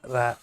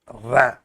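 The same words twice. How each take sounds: First: The r sound is pronounced lightly and softly. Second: The r sound is pronounced strongly and forcefully. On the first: "Here it's a very light uh, type of uh, pronouncing it" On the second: "you have to pronounce it very strongly"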